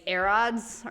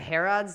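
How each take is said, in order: First: The word begins with a vowel, no H sound. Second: The word begins with a clear H sound. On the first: "the H is never pronounced in anything" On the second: "instead of"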